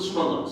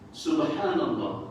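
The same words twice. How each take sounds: First: The phrase is said quickly and rushed. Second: The phrase is said slowly and carefully. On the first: It turns into an insult to God. The speaker calls it wrong. "sebab bila laju" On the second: Glory be to God. The speaker calls it right. "Maha suci Allah"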